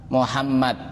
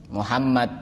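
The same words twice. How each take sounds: Both takes have the same delivery.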